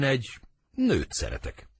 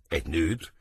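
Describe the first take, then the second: First: NŐT pitched high, then falling; solemn confession. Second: NŐT rising as a question; echo question. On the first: Romeo confesses his love to Benvolio, NŐT high, falling statement. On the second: Benvolio echoes Romeo's confession, NŐT turned into a rising question. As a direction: lower echo, lifting on NŐT. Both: Acted.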